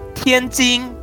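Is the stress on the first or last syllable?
last. The stress is on the last syllable.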